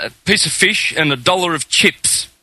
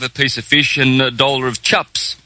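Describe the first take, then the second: First: "chips" with a careful short I, Aussie style; corrected accent. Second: "chups" with a short U for chips; Kiwi pronunciation. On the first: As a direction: order "chips" proudly avoiding the Kiwi "chups". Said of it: "thinks he's got it right". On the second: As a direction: order "chups" with a Kiwi vowel, like "cup". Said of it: "you guys say chups". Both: Acted.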